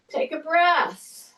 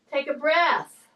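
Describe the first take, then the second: First: Slow breathing cue. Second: Said in the usual way. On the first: Shown as a demonstration. Trainer guiding a client's breath, slow and drawn out. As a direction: draw the cue out, like pacing their breath.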